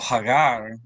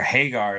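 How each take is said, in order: First: The name is pronounced the original Arabic way. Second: The name is pronounced the anglicized English way.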